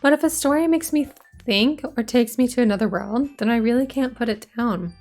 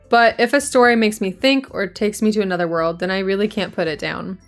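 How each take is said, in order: First: It is read in Yuri's character voice. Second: It is read in another character's voice.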